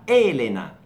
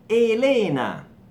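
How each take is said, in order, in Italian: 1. L'accento cade sulla prima sillaba. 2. L'accento cade sulla seconda sillaba. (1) "in Italia diventa Elena, senza H e si anticipa la tonica" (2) "Elena del Brasile"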